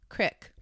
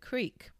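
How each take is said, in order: First: The word is said with an 'ick' vowel. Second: The word is said with an 'eek' vowel.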